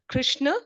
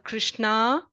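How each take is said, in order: First: It is said with a North Indian pronunciation. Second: It is said with a South Indian pronunciation. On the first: "It's not Krishna" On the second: "or Krishna"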